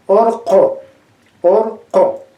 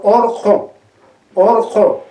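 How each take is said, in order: First: Orjo with the final o opened wide; open final vowel. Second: Orjo, first vowel closed, final vowel open like o; quechua word demo. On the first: Teacher repeats Orjo to stress the open vowel. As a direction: say Orjo twice, stretching the open last vowel. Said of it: "la final es mucho más abierta todavía". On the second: Teacher shows orjo to the class, deliberate and clear. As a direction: say orjo twice slowly, opening the last vowel. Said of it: "Entonces decimos, por ejemplo". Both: Shown as a demonstration.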